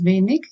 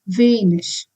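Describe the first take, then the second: First: The word ends in a hard consonant sound. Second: The word ends in a soft ish sound. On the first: This is a regional form. "it is a dialect" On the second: This is the standard form. "it has to be pronounced as ish"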